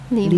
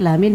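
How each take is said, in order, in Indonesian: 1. Kata ini diucapkan liman. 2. Kata ini diucapkan lamin. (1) "bukan liman" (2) "Hati-hati, lamin bukan liman"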